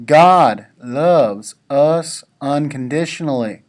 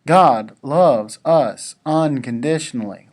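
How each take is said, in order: First: "God loves us unconditionally" said slower and louder, leaning on God; slow down and give each word weight, stressing God; preacher's emphatic retake; more inflection. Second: Said in the usual way. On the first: Shown as a demonstration. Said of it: "with a little bit more inflection". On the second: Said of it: "Let me say that again".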